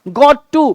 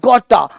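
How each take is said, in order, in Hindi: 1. दोनों शब्द पूरी तरह बोले जाते हैं, साफ़ t के साथ। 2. दोनों शब्द मिलकर एक छोटा, घटा हुआ शब्द बन जाते हैं। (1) "शॉर्ट कैसे" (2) "शॉर्ट फॉर्म"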